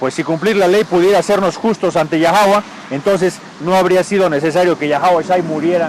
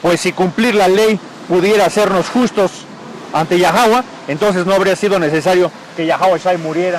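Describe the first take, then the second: No difference in how they are said.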